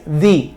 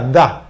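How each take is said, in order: First: The word ends in a long ee sound. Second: The word ends in a short uh sound. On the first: The speaker calls it right. "la pronunciación ahí es the" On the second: The speaker calls it wrong. "pues se pronuncia da. Y no es así"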